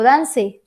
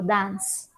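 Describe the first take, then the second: First: The final e is pronounced aloud. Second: The final e is not pronounced. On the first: The speaker calls it wrong. "Yo no digo dance" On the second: The speaker calls it right. "yo digo dance"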